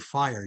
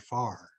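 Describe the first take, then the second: First: The vowel glides, like 'fy-er'. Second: The vowel stays flat, like 'far'. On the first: "you wouldn't say fire" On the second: "you'd say far"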